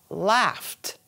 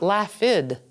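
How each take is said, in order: First: The ending is said as a plain 't' sound. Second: The ending is not said as a plain 't' sound. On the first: The speaker calls it right. "the pronunciation of the ED will sound like a T" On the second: The speaker calls it wrong. "And not laughed"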